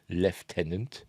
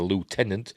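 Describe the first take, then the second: First: It is said with an f sound. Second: It is said without an f sound.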